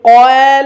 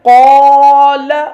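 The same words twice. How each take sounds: First: The long a sound is thin and light. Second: The long a sound is heavy and full. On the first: The speaker calls it wrong. "अब इसको हम इस तरह नहीं पढ़ेंगे कि कौल, ऐसे नहीं पढ़ेंगे" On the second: The speaker calls it right. "बल्कि कौल। अलिफ भी मा कबल की वजह से मोटा हो जाएगा।"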